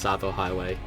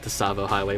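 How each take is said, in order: First: The first word has two syllables. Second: The first word has three syllables. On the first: The speaker calls it right. "but it's actually just Savo Highway" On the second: The speaker calls it wrong. "Even I used to pronounce it Tasavo Highway"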